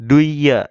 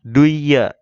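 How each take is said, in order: First: The n disappears into a doubled y sound. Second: The same.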